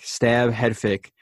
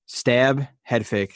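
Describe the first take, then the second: First: "stab, head fake" said slowly, each beat separated; walk through "stab, head fake" step by step, slowly; slow, spelled-out breakdown. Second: Said in the usual way. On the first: Shown as a demonstration.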